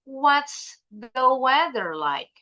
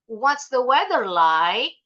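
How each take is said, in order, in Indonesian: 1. Suara turun di akhir. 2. Suara naik di akhir. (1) "Kayak tanda baca titik ... intonasinya turun" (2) "bukan ... Itu intonasi bahasa Indonesia"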